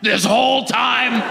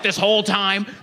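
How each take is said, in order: First: It is said in a deep guttural voice. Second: It is said in a plain voice.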